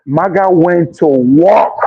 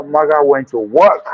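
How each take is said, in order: First: "maga went to work" slowed down, each word leaned on; slow emphatic repeat. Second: Said in the usual way. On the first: Real, not acted. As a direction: drag out "maga went to work" to drive it home.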